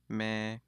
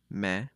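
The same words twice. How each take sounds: First: The vowel is long, high and level. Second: The vowel is short, mid and level. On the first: "the long, high, flat tone" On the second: "the short, neutral, flat tone"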